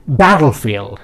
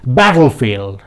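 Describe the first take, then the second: No difference in how they are said.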